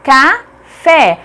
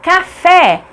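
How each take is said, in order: First: "café" split as ca... fé; detached beats in "café", firm on fé; syllable by syllable. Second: "Café" joined up, high, landing on fé; joined "Café" with stressed ending; whole word, final stress. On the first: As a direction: pause between the two syllables of "café". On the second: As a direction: announce "Café" as one word. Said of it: "A última sílaba". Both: Shown as a demonstration.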